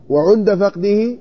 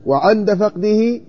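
First: "وعند" read as wa-ʿund, with a rounded u after the ʿayn; teacher showing the damma variant of وعند; damma reading of عند. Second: "وعند" read as wa-ʿand, with an open a after the ʿayn; teacher showing the fatha variant of وعند; fatha reading of عند. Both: Shown as a demonstration. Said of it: "وعند مثلث العين".

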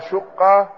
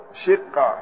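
First: "شقة" with a short u after the shin; damma on the shin. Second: "شقة" with a short i after the shin; kasra on the shin. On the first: Teacher showing students the first reading, "شقة" said shuqqa. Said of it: "الشقة بضم الشين". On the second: Teacher showing students the second reading, "شقة" said shiqqa. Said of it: "وكسرها". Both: Shown as a demonstration.

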